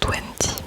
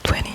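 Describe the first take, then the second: First: The middle T is clearly pronounced. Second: The middle T is left out. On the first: "le T qui des fois est prononcé" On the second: "des fois pas"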